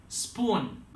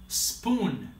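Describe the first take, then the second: No difference in how they are said.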